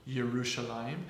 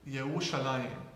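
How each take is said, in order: The two takes are said the same way.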